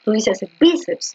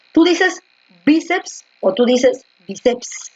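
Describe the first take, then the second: First: Bíceps with a firm stress on BI, BI-ceps; teacher confirming the stress. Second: Bíceps said twice with the stress moved, slowly; teacher asking which stress of bíceps is right; stress contrast. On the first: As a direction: hit BI in bíceps, then fall. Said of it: "La fuerza de voz está en bi". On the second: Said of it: "la fuerza de voz está aquí, en bi". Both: Shown as a demonstration.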